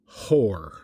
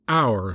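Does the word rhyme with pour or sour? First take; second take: pour; sour. First: Spoken h, rhyming with pour. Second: Silent h, rhyming with sour. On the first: The speaker calls it wrong. "I chose the sound of your and pour and for... added the H back" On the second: The speaker calls it right. "knock off the H and say hour like sour or scour"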